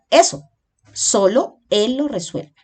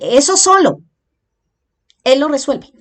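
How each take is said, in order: First: The pause comes after eso. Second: The pause comes after solo.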